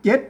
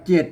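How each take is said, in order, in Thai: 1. คำนี้ออกเสียงเป็นเสียงจัตวา 2. คำนี้ออกเสียงเป็นเสียงเอก (1) "มันเจ็ดเสียงจัตวา แล้วก็มาตามสำเนียงเชียงใหม่" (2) "เสียงเอกอยู่ดีก็เจ็ด"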